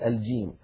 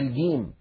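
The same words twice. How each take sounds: First: The word starts with a j sound. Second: The word starts with a hard g sound. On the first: The speaker calls it right. "بدل الجيم" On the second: The speaker calls it wrong. "فبعض العرب يجعلون مكان الجيم حرف صوت الجا جا، فيقولون مثلا"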